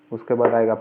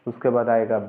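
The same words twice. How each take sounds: The two takes are said the same way.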